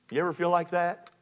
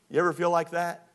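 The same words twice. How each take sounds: The two takes are said the same way.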